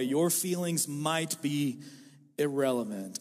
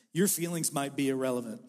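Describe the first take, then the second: First: "irrelevant" dropped low after a pause; slow down, pause, land "irrelevant" low; slow emphatic restatement. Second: Said in the usual way. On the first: Shown as a demonstration. Pastor repeats the point slowly so the congregation hears it, low emphatic landing. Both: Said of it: "hear me out all the way".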